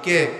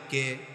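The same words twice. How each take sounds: First: It is said more loudly. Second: It is said at normal volume.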